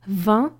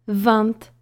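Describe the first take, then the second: First: The word ends on a nasal vowel, no t. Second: The word ends with an audible t sound. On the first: Most speakers say it this way. "zamiast powiedzieć vin" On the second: A small minority of speakers say it this way. "niektórzy Francuzi, ale zdecydowana mniejszość, wymawia te końcowe"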